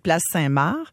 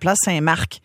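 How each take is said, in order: First: The final C of Marc is silent. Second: The final C of Marc is pronounced. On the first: The speaker calls it right. "on dit place Saint-Marc" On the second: The speaker calls it wrong. "il faut pas prononcer le C"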